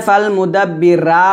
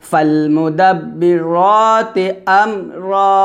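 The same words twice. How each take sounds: First: ফালমুদাব্বিরা clipped, final রা without তি; wrong pronunciation. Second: ফালমুদাব্বিরাতি with full রাতি and doubled ব; correct tajweed. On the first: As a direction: cut the word short at রা. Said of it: "এখানে ফালমুদাব্বিরা বলা যাবে না". (ভুল উচ্চারণ, শেষে তি ছাড়া) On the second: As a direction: recite it slowly and fully. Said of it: "র বলতে হবে". (সঠিক তাজবিদে পূর্ণ উচ্চারণ) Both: Shown as a demonstration.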